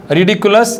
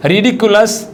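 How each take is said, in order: Both takes have the same delivery.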